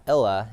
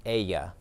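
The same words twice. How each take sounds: First: "ella" with an English L sound, "EL-la"; "ella" mispronounced with a plain L; wrong L pronunciation. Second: "ella" said "AY-ya", with a Y sound; "ella" pronounced "eh-ya", no L heard; double L as Y. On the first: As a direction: say "ella" as "ell-uh", sounding the double L as L. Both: Shown as a demonstration. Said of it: "the double L makes the Y sound".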